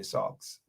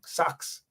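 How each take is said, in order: First: Socks said with a rounded, open aw vowel, sawks; other regional socks. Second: Socks said with a rural twang, a drawn-out open vowel; country twang socks. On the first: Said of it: "in some parts of the world, they say". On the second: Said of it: "a little bit of the country twang". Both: Shown as a demonstration.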